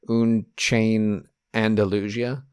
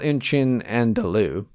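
First: The last word is said as Andalusia. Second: The last word is said as Andalou. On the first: The speaker calls it wrong. "I'm going to say like he said it" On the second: The speaker calls it right. "But it's called"

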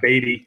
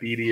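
First: The first syllable does not rhyme with meat. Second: The first syllable rhymes with meat. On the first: It is the pronunciation the team itself gives. The speaker calls it right. "it is Beattie" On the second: It is read the way the spelling suggests. The speaker calls it wrong. "it looks like Beattie if you're looking at it"

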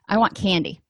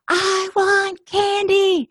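First: It is said at a normal volume. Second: It is said screaming.

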